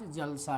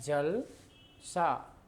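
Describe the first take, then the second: First: The two parts run together with no pause. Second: There is a short pause between the two parts. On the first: There is a festive gathering. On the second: Something looks like water.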